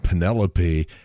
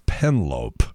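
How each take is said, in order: First: The name is said with four syllables. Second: The name is said with three syllables. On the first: The speaker calls it right. "pronounced the name Penelope as" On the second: The speaker calls it wrong.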